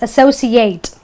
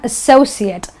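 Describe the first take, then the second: First: The ending sounds like the number eight. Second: The ending is a short, weak 'it' sound. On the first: The word is used as a verb. "the ate is pronounced as eight, the number eight, because it's a verb" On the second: The word is used as a noun. "So it becomes an et"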